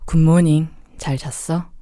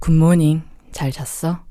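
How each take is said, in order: First: The greeting sounds heavy and gloomy. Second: The same.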